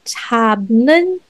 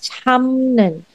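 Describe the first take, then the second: First: A 'p' sound comes before the 'n'. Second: An 'm' sound comes before the 'n'. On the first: The speaker calls it wrong. "The is not chabnun" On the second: The speaker calls it right. "but it's chamnun"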